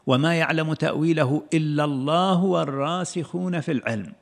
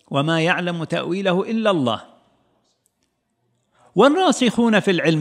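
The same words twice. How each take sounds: First: There is no pause after 'Allah'. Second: There is a pause after 'Allah'. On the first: "أفادت معنى آخر" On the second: "هذا يفيد معنى"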